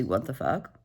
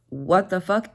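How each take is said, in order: First: Quiet stunned what the fuck; stunned low mutter. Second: Said in the usual way. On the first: Real, not acted. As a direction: lower and much softer, under the breath. Repeated reaction, quieter take.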